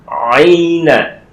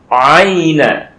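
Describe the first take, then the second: The two takes are said the same way.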